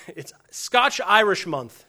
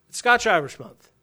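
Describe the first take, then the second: First: Slow, laughing through the words Scotch-Irish Month; drawn-out chuckle on Scotch-Irish; laughing mock announcement. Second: Scotch-Irish Month declared louder, with a firm fall; emphatic mock proclamation. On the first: Preacher imagines a heritage month, laughing slowly. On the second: Preacher pretends to declare a heritage month, loudly proclaiming. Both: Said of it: "What would happen if I was like".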